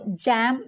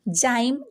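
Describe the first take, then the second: First: The vowel is an 'a' sound. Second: The vowel is a long 'eye' sound. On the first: "जैम नहीं" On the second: "जाइम नहीं"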